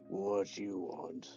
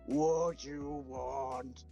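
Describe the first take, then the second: First: It is said at a normal, quieter volume. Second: It is said at a much louder volume.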